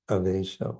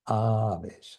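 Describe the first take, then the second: First: The first vowel is short. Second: The first vowel is long. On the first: The speaker calls it wrong. "Otherwise, I don't know, what that means. Means without with without clothing or something" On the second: The speaker calls it right.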